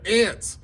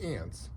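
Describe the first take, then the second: First: The word is said loudly with excited energy. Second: The word is said in a calm, ordinary voice. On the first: The speaker calls it right. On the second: The speaker calls it wrong.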